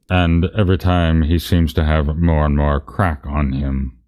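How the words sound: It is read in Dumbledore's character voice.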